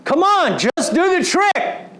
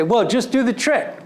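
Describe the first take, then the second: First: Much higher, louder exasperated push; frustrated father. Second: Light, encouraging nudge, a bit raised; patient coaxing. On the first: Dad losing patience with his son stuck in snow, exasperated. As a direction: snap at him like an impatient dad. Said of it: "I realize I sound like my father". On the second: Dad coaching his fallen son, patiently encouraging. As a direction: coax him along, still patient. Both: Retold or imitated.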